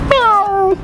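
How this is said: The meow imitates a female cat. A female cat is walking off in a romantic mood. "बिल्ली पहले बिल्ली जब जा रही होती है अपनी एक रोमांटिक सीन के अंदर"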